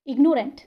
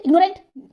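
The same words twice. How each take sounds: First: ignorant unhurried, slight gap before rent; measured two-part ignorant; slight pause inside. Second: ignorant rushed together, no pause; hurried one-piece ignorant; said too quickly. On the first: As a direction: say ignorant carefully in two beats. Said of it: "बीच में थोड़ा सा हल्का सा pause आता है". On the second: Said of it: "जल्दी बोल देंगे". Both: Shown as a demonstration.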